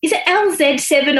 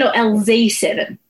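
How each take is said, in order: First: "Z" said as "zed"; British Z. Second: "Z" said as "zee"; American Z. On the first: Interviewer checking the band's name, "Z" as British "zed". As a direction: say the "Z" in "L Z seven" as "zed". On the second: Interviewer offering the other band name, "Z" as American "zee". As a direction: say the "Z" in "L Z seven" as "zee". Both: Shown as a demonstration.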